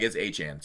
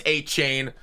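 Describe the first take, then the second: First: Achane said as ay-CHAHN, low and quiet; player's correction. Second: Achane said as ay-CHAYN, like chain; old pronunciation. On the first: Retold or imitated. Quoting the player correcting his name, Achane as ay-CHAHN. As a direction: Achane with a flat ahn ending. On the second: Shown as a demonstration. Early-season version of the name, Achane as ay-CHAYN. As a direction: Achane with a long ay. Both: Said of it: "he clarified what he actually wants to be called".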